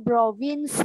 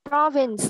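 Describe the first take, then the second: First: The stress is on the second syllable. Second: The stress is on the first syllable. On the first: The speaker calls it wrong. "không có province nha" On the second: The speaker calls it right. "Âm tiết thứ nhất được nhắn nha"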